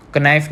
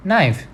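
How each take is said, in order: First: Knife with the K sounded; knife said wrongly, K pronounced; wrong pronunciation. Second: Knife with a silent K; knife said right, K dropped; correct pronunciation. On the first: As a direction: say Knife starting on a hard K. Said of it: "नहीं बोलते ना हम". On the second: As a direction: say Knife starting on the N. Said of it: "क्या बोलते हैं?". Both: Shown as a demonstration.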